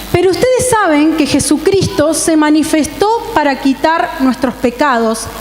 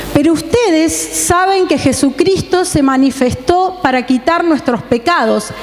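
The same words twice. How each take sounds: No difference in how they are said.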